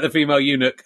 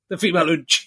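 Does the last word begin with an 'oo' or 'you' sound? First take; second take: you; oo. First: The last word begins with a 'you' sound. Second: The last word begins with an 'oo' sound. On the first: The speaker calls it right. "It was the word eunuch" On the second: The speaker calls it wrong. "someone calling it the female ooch"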